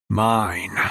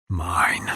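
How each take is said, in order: First: Louder possessive. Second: Said in the usual way. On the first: Acted. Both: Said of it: "one word falling from my lips".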